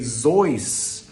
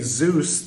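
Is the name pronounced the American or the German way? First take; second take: German; American. First: The name is said with a German pronunciation. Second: The name is said with an American pronunciation. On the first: The speaker calls it right. "they say Zeus, which sounds a little like Zoinks" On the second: The speaker calls it wrong. "they don't say Zeus"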